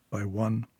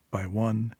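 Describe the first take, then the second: No difference in how they are said.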